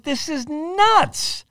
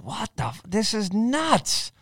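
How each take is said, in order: First: Very high, very slow, drawn-out "nuts" that falls; hammed-up astonishment; amazed disbelief. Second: Drawn out slowly, much higher pitch, then falling on nuts; slow, amazed disbelief; hushed, awestruck mutter; stunned disbelief. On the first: Repeats the stunned reaction, bigger. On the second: Retold or imitated. Stunned reaction quoted with "I was like.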